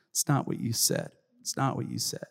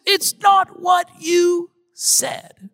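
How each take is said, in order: First: Put-on soft, lower echo of the child's protest; subdued repeat. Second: High, slow, loud mock child's wail; upset child. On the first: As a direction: let the protest sink to a small, quiet voice. Same protest repeated, dropping away. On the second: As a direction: protest like a little boy at full pitch. Imitating his upset child protesting.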